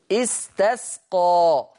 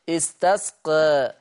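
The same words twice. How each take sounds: First: Slow استسقى ending on an open a; استسقى with a plain open a; fath reading. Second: Slow استسقى with the final alif leaning toward e; استسقى with a half-raised a; taqlil reading. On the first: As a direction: recite استسقى with a clean fath. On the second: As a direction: recite استسقى with a slight e tilt. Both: Shown as a demonstration. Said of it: "بالفتح والتقليل".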